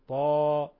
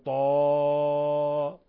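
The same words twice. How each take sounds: First: The final vowel is held for two counts. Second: The final vowel is stretched well beyond two counts. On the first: The speaker calls it right. "يمد مقدار حركتين فقط" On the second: The speaker calls it wrong. "ولا نقول طا"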